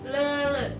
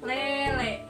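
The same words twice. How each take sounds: First: The vowels are a central schwa sound. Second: The vowels are a clear front e sound. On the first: "dibacanya ini apa yang disebut E empat" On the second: "Kalau eteleng berarti oh, bacanya E"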